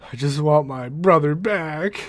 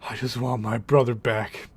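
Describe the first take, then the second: First: Slower plea, rising at the end; mock-dramatic Cisco begging; pleading Cisco, pushing harder. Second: Lightly voiced grieving friend; pleading Cisco. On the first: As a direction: demand the brother back, slower and pressing. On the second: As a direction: ask for the brother back, holding it in. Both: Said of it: "Cisco's argument is".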